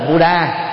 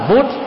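First: The final vowel is sounded. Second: The final vowel is dropped. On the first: "Buddha là đọc theo tiếng Anh" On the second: "đọc chuẩn là Bút"

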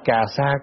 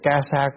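First: The first syllable has a low falling tone. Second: The first syllable has a level tone. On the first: The speaker calls it wrong. "đọc cà sa cũng được" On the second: The speaker calls it right. "mà đọc ca sa thì đúng chữ hơn"

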